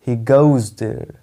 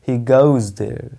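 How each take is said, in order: No difference in how they are said.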